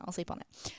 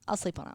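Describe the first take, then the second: First: Soft whispered echo; whispered repeat. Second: Said in the usual way. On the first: Retold or imitated. Podcaster echoing her own indecision in a whisper. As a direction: whisper it to yourself.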